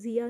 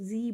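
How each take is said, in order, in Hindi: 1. यह शब्द दो अक्षरों में कहा जाता है। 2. यह शब्द एक अक्षर में कहा जाता है। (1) "इसको जिया नहीं बोलना" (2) "इसको जी बोलना है"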